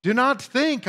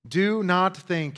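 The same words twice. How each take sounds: First: "Do not think" high, with falling "think"; emphatic stress. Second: "Do not think" said slowly, each word weighted; slow emphatic command. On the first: Preacher showing the Greek emphasis, high emphatic "Do not think". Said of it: "emphatically in the Greek". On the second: Preacher to congregation, slow weighted "Do not think". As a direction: lean on "Do not think" as a warning. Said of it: "In other words, pay attention". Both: Shown as a demonstration.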